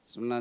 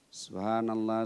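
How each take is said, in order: First: The phrase is rushed and slurred together. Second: The phrase is said slowly and clearly. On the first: The words are not understood. The speaker calls it wrong. "Terlalu cepat" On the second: The words are said properly. The speaker calls it right. "ucapannya benar dan jangan terburu-buru"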